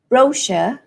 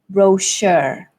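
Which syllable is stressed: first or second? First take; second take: first; second. First: The stress is on the first syllable. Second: The stress is on the second syllable. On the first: "in British English, the stress falls on the first syllable" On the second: "in American English, the stress falls on the second syllable"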